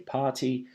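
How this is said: The T is pronounced clearly, in a British accent. "a British person will say party"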